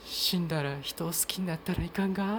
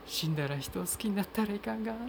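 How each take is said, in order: First: Higher, lightly voiced film heroine in Tosa dialect; film line in Tosa dialect. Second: Remembered film line. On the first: Podcaster recalling a line from the film Shikoku, lightly acted in Tosa dialect. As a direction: quote the film character gently, a bit higher, with a Tosa lilt. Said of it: "そのセリフで土佐弁が". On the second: Retold or imitated. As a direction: recall the line gently from memory, pitched up high. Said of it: "私の記憶の中にあるのは".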